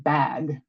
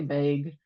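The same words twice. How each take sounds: First: The vowel sounds East Coast American. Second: The vowel sounds exaggerated Midwestern American. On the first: This is how it is said where the speaker grew up. "I'm used to saying bag, right? That's how we say it where I'm from" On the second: This is how people in another region say it. "over there they say bag. And I'm probably exaggerating a little bit"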